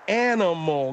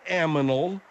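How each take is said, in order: First: The n sound comes before the m. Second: The m sound comes before the n. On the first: The speaker calls it right. "Animal, not aminal" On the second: The speaker calls it wrong. "not aminal"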